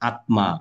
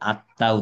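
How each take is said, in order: First: The m is clearly sounded in the word. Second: The m is not sounded in the word. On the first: The speaker calls it wrong. "ম আছে তাই উচ্চারণ করে ফেলবো" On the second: The speaker calls it right. "আত্মা উচ্চারণ না করে"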